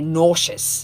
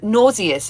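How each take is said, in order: First: The word is said the American way. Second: The word is said the British way.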